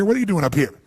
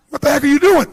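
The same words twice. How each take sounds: First: Said in the usual way. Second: Loud, high scolding yell; shocked, indignant shout; brain yelling. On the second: Retold or imitated. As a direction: yell like your own brain caught you out. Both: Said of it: "your brain goes".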